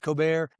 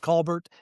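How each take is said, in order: First: Pronounced the way the talk show host says it. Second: Pronounced the way people say it in Oklahoma. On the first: This is how the famous host says the name. "He says Colbert" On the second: This is how the family says the name locally. "Down in Oklahoma, it's Colbert"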